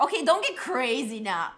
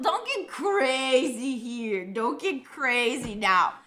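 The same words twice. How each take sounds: First: Said in the usual way. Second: Slow, stretched-out words; half speed, teasing caution; drawn-out mock warning. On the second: Real, not acted. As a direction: drag out CRAZY, playfully telling them off.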